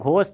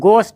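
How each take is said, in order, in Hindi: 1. पहली ध्वनि साँस वाला, महाप्राण ग है। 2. पहली ध्वनि सादा ग है, कोई साँस नहीं। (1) "घोस्ट बिल्कुल भी नहीं है" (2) "यहाँ पर एच साइलेंट होगा, ... ये गोस्ट है"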